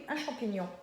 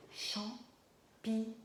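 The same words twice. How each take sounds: First: Said in the usual way. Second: CHAMPIGNON slowly cut into CHAM - PI - GNON; syllable by syllable. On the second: Shown as a demonstration. Teacher leading children to the first syllable, syllable by syllable. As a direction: sound out CHAMPIGNON with a pause after each syllable. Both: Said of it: "trouvons la première syllabe".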